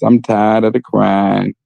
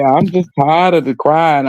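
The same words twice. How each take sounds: First: Slow, low, deadpan reading of the comment; mock reading a comment. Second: Said in the usual way. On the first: Reading a viewer's comment out, slow deadpan. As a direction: read the viewer comment aloud slowly and dryly. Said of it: "I'm reading the comments". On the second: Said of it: "I'm sorry".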